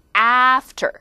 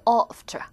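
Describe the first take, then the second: First: The first vowel is open and front, American-style. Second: The first vowel is back, British-style. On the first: "미국 사람들이 입을 이만큼 벌려요. 에" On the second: "영국 사람도 after"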